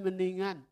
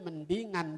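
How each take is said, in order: First: The voice is blocked and nasal. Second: The voice is clear, not nasal. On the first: "Karena hidungnya ketutup, jadi kagak jelas" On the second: "Maksudnya mendingan gitu"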